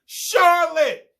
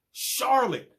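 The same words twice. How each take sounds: First: "Charlotte!" yelled high and loud, long falling wail; screamed name. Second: Said in the usual way. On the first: Retold or imitated. Bean screaming "Charlotte!" while spanked, loud high wail. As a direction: cry "Charlotte!" out from the bedroom. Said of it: "sounds like it's being screamed by Bean". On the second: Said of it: "it wasn't even a cute stripper name".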